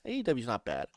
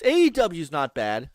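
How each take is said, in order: First: Much softer, lower repeat; dropped right down, almost to oneself; quiet aside. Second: Said in the usual way. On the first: Real, not acted. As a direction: say it under your breath.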